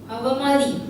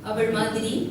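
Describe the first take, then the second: First: It is said reduced into one clipped word. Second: It is said in the full formal form. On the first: The speaker calls it wrong. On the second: The speaker calls it right.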